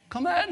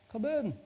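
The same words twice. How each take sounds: First: Very high-pitched repeated call; insistent voice from inside. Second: High, thin call from indoors; voice from inside. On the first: Householder answering a second knock, very high insistent call. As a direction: squeal it through the door. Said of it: "I rapped the door again". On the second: Unseen householder answering the preacher's knock, high-pitched call. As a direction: imitate someone calling through a door. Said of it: "I heard a voice inside saying". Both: Retold or imitated.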